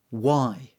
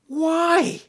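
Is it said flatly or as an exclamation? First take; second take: flatly; exclamation. First: It is said flatly, without exclamation. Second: It is said as an astonished exclamation.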